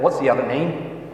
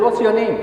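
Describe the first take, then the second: First: Slower, drawn-out question at normal pitch; repeating the question. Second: High, light, quick question; asking a little boy. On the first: Teacher asking the puzzled boy once more, slow careful repeat. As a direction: spell it out slowly for him. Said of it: "I, I said". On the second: Teacher first asking a little boy his name, high-pitched question. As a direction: ask brightly on a raised pitch. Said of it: "And I said". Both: Retold or imitated.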